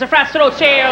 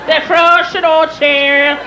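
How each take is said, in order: First: Lightly put-on Irish accent, reeled off; mock Irish brogue. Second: Very slow Irish dictation; thick Irish brogue. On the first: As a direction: reel it off in a teasing Irish accent. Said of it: "used to make fun of him". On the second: Acted. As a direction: stretch each word in an Irish brogue while writing it down. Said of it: "He'd write it down".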